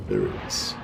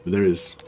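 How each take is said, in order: First: Much lower and softer, slow; mock deep voice. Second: Said in the usual way. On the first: Gamer finding the hidden symbol, mock deep voice. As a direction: drop to a low mock-solemn rumble. Repeats it in a put-on voice.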